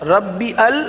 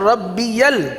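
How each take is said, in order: First: The words are separated with no y glide. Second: The words are linked with a y glide. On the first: The speaker calls it wrong. "फर्क महसूस कर रहे हैं ना" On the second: The speaker calls it right. "तो पढ़ना है रब्बी यल"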